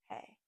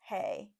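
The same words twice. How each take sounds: First: It is said in a small, soft voice. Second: It is said in a big, mighty voice.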